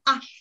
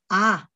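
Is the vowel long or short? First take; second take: short; long. First: The vowel is held only briefly. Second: The vowel is held for longer. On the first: "짧은 아" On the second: "긴 아"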